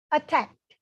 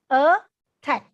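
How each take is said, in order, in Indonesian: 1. Kata ini diucapkan dengan kecepatan normal. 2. Kata ini diucapkan dengan lambat dan dipanjangkan.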